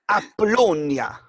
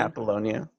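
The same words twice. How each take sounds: First: It is said in an exaggerated Italian accent. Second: It is said in a plain English accent.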